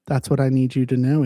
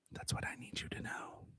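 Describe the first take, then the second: First: Said in the usual way. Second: Fully unvoiced whisper, close and intimate; ASMR whisper. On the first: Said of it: "whisper repeat". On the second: Shown as a demonstration. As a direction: breathe the line like ASMR. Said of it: "A S M R".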